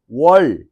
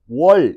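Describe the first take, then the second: First: The final l sound is long and drawn out. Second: The final l sound is long and drawn out.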